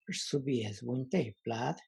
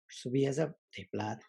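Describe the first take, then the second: First: Subias said with a breathy vowel; breathy demo of subias; breathier vowel. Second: Said in the usual way. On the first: Shown as a demonstration. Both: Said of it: "the first one is breathier".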